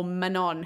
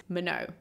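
First: "Manon" with the final n sounded; anglicized name pronunciation. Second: "Minot" with silent final n, ending in an open "oh"; French name pronunciation. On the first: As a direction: say "Manon" like muh-NON. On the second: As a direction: say "Minot" like muh-NOH. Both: Shown as a demonstration. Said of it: "How are we saying her name?".

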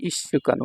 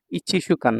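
First: ইস্যু কান with the ichi contracted into ইস্যু; correct reading. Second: ইচিসুকান said as the full spelled-out reading, every syllable sounded; wrong reading. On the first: Teacher giving students the right reading, ইস্যু কান contracted. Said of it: "ইস্যু কান উচ্চারণের ক্ষেত্রে". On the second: Teacher showing students the wrong way, ইচিসুকান said in full. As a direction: read ইচিসুকান syllable by syllable as the mistaken form. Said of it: "ইচিসুকান না". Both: Shown as a demonstration.

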